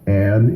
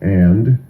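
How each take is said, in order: First: The final D sound is dropped. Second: The final D sound is pronounced. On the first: The speaker calls it wrong. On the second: The speaker calls it right.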